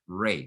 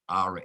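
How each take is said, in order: First: The vowel is an 'ay' sound. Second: The vowel is an open 'ah' sound. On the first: The speaker calls it right. "the correct pronunciation of the word is Ray" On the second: The speaker calls it wrong. "a lot of European academics and their writers pronounce the word Ra as Ra"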